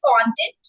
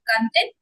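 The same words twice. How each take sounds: First: The stress is on the first syllable. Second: The stress is on the second syllable. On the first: It means material you watch or read. "Second pronunciation is content, which is the videos" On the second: It means happy and satisfied. "first pronunciation content, which is happy and satisfied"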